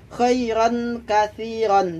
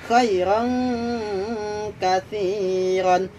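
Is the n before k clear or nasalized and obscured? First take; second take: clear; nasalized. First: The n is pronounced clearly without nasal hum. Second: The n is obscured with a nasal hum. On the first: The speaker calls it wrong. "tidak boleh dibaca" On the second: The speaker calls it right. "Jadi harus dibaca samar"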